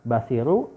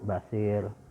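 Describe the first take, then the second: First: The word ends with a short u vowel. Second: The word ends on the consonant r. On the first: The reading continues past this word. "Yang tadinya hakimu jadi hakim" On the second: The reading stops at this word. "Yang tadinya hakimu jadi hakim"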